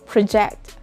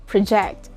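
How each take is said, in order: First: The stress is on the second syllable. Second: The stress is on the second syllable.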